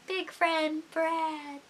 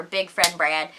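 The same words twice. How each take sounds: First: High, soft, very slow repeat; mock wistful. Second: Said in the usual way. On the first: Missing a friend not seen in a while, playfully wistful. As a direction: stretch each word out, hushed and high.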